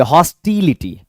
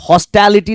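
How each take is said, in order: First: हॉस्टिलिटी as "hos-TEE-li-ti", middle vowel drawn out; correct pronunciation. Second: हॉस्टिलिटी said wrongly as "hos-TA-li-ti"; mispronunciation. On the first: English teacher models the word for students, carefully pronounced. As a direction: say हॉस्टिलिटी with a long "ee" after the t. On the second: English teacher shows students what not to read, mispronounced. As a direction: say हॉस्टिलिटी with an open "a" in the middle. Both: Shown as a demonstration. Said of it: "इसे आप हॉस्टिलिटी नहीं पढ़ेंगे".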